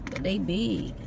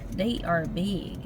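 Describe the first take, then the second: First: Said in the usual way. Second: "They are big" said slowly, every word weighted; insisting slowly on "They are big"; slow emphatic. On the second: Shown as a demonstration.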